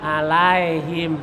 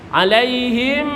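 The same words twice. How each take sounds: First: ALAIHIM said lower as a-la-e-him; wrong e reading. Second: ALAIHIM with clear i and lips shut on m; correct i, closed m. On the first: Teacher mimicking old-time reading, e sound. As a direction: turn the glide in ALAIHIM into e. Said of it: "Jangan dibaca e". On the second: Teacher modelling the correct reading, clear i. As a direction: glide to i, seal the final m of ALAIHIM. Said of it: "rapatkan bibirnya". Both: Shown as a demonstration.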